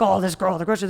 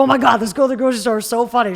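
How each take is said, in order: First: Said in the usual way. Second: Loud, fast, delighted gush; excited retelling. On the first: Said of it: "they're not gonna say". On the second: Retold or imitated. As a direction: gush about someone hilarious you met. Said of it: "They're gonna be like".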